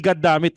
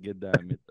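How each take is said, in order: First: The first word sounds like 'god'. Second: The first word sounds like 'get'. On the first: This is the standard form of the phrase. "hindi God damn it" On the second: This is how the film character said it. "get damn it yung pagkakasabi doon eh"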